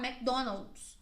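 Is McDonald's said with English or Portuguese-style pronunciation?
English. It is said with an English pronunciation. The brand name is kept as in the original. "Mesmo que tu esteja falando em português, tu vai falar"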